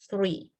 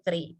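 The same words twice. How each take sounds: First: The word begins with a th sound. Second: The word begins with a plain t sound. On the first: "But this one is" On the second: "Kalau konsonan T biasa, maka dia akan dibaca sebagai"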